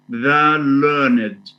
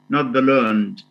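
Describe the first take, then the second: First: The ending is a separate syllable, learn-ed. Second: The ending is not a separate syllable. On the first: The speaker calls it right. "but it's pronounced the learned" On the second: The speaker calls it wrong.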